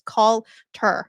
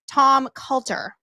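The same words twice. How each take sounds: First: Coulter said carefully, with the r; careful pronunciation. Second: Coulter said with a Boston accent, r dropped. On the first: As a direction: Coulter in standard American. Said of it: "I'll try to pronounce it correctly". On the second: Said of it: "I really wanna say Coulter with my accent". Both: Shown as a demonstration.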